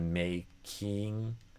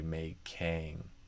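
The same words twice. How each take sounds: First: The last syllable has a tense 'ee' vowel. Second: The last syllable has a lax 'ih' vowel. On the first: "instead of making" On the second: "I would do making"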